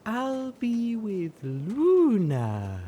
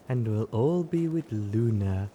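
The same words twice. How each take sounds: First: Slow dreamy croon on Luna. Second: Said in the usual way. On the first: A narrator's reading. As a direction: croon it, swaying, dazed. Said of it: "she crooned as she swayed".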